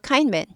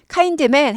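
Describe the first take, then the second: First: The d sound in kind is barely heard. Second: The d sound in kind is clearly released. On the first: The speaker calls it right. "드가 잘 어, 들리지 않고 빨리 어, 빨리빨리 지나갑니다" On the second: The speaker calls it wrong. "kind man 하지 않고"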